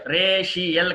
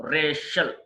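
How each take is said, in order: First: రేషియల్ in three syllables; wrong pronunciation. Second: రేషియల్ in two syllables; correct pronunciation. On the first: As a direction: say రేషియల్ as "ray-shi-el". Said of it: "కాదు". (రేషియల్ "రే-షి-యెల్" అని తప్పుగా) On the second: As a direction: say రేషియల్ as "RAY-shul". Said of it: "రేషియల్ కాదు". (రేషియల్ "రే-షల్" అని) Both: Shown as a demonstration.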